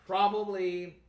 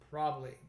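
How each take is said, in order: First: All three syllables are clearly pronounced. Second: One syllable is dropped, giving two syllables. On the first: "the full pronunciation" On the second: "the dropped syllable"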